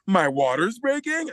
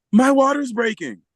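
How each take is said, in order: First: MY WATER'S BREAKING as a slow, high question; asking the question. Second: MY WATER'S BREAKING as a high, loud announcement falling at the end; retold statement. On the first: Retold or imitated. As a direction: stretch "My water's breaking" into an unsure question, lifting BREAKING. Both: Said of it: "now she's asking the question".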